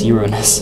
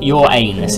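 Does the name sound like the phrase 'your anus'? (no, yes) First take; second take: no; yes. First: It does not sound like 'your anus'. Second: It sounds like the phrase 'your anus'. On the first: The speaker calls it right. "I am saying it correctly" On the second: The speaker calls it wrong. "it's not your anus"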